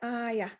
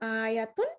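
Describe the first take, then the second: First: The word ends with an h sound. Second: The word ends with a t sound and vowel. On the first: The reader stops on the word. "if you stop, you will say ayah" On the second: The reader continues without stopping. "you're going to pronounce the ta"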